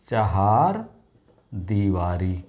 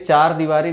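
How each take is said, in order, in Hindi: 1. पहला शब्द दो अक्षरों वाले 'chahar' की तरह बोला जाता है। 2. पहला शब्द छोटे 'char' की तरह बोला जाता है। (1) "लेकिन चहार दीवारी होता है" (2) "ये चार दीवारी नहीं होता"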